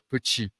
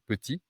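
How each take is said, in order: First: The t sounds a bit like ch. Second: The t is a plain, clean stop. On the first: "on a tendance à prononcer un T un peu comme tch" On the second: "au lieu de dire par exemple petit"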